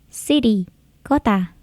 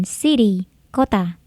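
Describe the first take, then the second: Both takes have the same delivery.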